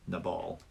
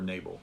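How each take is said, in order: First: Nabal said as nuh-BALL; alternative pronunciation. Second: Nabal said as NAY-bul; long A and first-syllable stress in Nabal, NAY-bul; alternative pronunciation. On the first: Teacher naming the surly man, Nabal as nuh-BALL. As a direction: stress the second syllable of Nabal, nuh-BALL. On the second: Teacher offering another way to say it, Nabal as NAY-bul. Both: Shown as a demonstration. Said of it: "however you want to say that".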